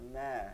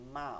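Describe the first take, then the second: First: The m is made with the inner, wet lips. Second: The m is made with the outer, dry lips. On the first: The speaker calls it wrong. "ভিজা জায়গা থেকে বলে দেখেন, ভিতর থেকে" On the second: The speaker calls it right. "শুকনা জায়গা থেকে মা"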